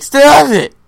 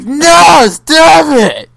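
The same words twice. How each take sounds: First: Loud sharp yell, high; angry shout. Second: Loud, sharp "stop it" yell; angry shout. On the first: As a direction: bark it out in a fake rage. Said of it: "Reenactment of Air when he's like". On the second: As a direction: shout it like fake raging. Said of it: "That was pretty accurate". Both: Retold or imitated.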